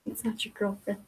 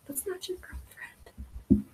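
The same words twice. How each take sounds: First: Said in the usual way. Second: Whispered higher, slow and secretive; whispered aside. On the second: Retold or imitated. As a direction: hiss it like a scandalous secret. Repeats it as a whisper.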